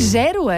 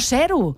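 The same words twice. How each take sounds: First: The first sound is a voiced, buzzing z. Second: The first sound is a voiceless, hissing s. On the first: The speaker calls it right. "De zero, amb una S sonora. Ha dit zero" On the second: The speaker calls it wrong. "No zero"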